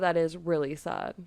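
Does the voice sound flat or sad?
flat. The voice sounds flat, without sadness. The speaker calls it wrong.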